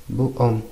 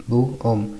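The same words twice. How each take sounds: The two takes are said the same way.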